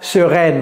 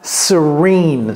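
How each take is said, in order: First: It is said with French vowels, ending 'rène'. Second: It is said with English vowels, ending 'reen'. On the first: The speaker calls it wrong. "Ne dites pas sereine" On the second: The speaker calls it right. "Vous voyez comment je prononce ça?"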